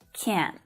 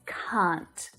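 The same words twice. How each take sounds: First: The vowel sounds like an American accent. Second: The vowel is long, like in car. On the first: "a little differently in some American accents, more like can't" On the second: "in my accent, it's can't"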